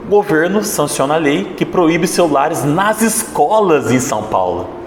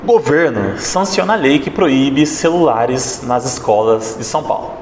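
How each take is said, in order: First: The emphasis falls on escolas em São Paulo. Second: The emphasis falls on the word governo. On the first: The schools in São Paulo are the protagonist. "Agora vamos dar ênfase no terceiro ponto" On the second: The government is the protagonist or villain. "eu vou dar uma ênfase aqui na palavra governo"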